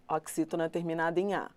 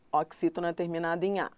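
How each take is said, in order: Both takes have the same delivery.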